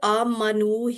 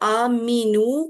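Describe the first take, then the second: First: The vowel after the m is 'a'. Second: The vowel after the m is 'i'. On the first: They all believed. The speaker calls it right. "मीम के ऊपर ज़बर" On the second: The meaning changes to something else. The speaker calls it wrong. "मीम के नीचे ज़ेर"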